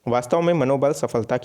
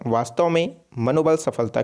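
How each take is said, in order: First: It is said straight through without a pause. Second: There is a short pause after the opening phrase. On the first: The speaker calls it wrong. "आप इस तरीके से बोल रहे हैं तो ये गलत हो जाएगा।" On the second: The speaker calls it right. "आप इस तरीके से बोलिए"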